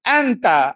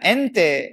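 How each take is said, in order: First: The vowels sound like a. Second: The vowels sound like e. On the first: The speaker calls it right. "Kena betul kan balik" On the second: The speaker calls it wrong. "Mana ada ente"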